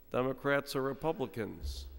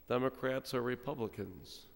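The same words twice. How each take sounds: The two takes are said the same way.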